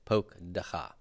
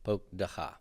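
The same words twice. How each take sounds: Both takes have the same delivery.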